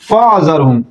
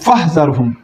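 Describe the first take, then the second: First: The middle consonant is a throaty ain sound. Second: The middle consonant is a breathy h sound. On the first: The speaker calls it wrong. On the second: The speaker calls it right.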